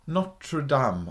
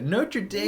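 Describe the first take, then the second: First: It is pronounced without an American accent. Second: It is pronounced with an American accent.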